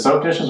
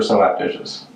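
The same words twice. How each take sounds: First: Said in the usual way. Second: "soap" split in two as "so-ap"; two-syllable soap. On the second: Shown as a demonstration. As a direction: say "soap" like "SO-app". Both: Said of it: "How, how do you say it?".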